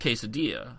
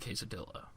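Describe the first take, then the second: First: The double L sounds like a Y. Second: The double L sounds like an L. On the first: "but that is quesadilla" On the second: "there are those who would pronounce it quesadilla"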